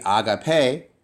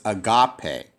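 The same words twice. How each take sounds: First: "agape" stressed on the final syllable, ah-gah-PAY; stress at the end. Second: "agape" stressed in the middle, ah-GAH-pay; stress on middle syllable. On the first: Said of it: "put the stress at the end". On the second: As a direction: put the weight on the GA of "agape". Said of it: "It's actually here". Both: Shown as a demonstration.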